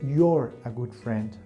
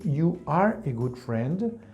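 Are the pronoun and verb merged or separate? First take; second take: merged; separate. First: Pronoun and verb are merged into one word. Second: Pronoun and verb are said as separate words. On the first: "I can say" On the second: "Instead of saying"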